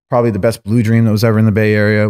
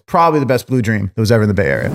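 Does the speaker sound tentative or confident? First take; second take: tentative; confident. First: It is said plainly, without special confidence. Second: It is said with a confident voice.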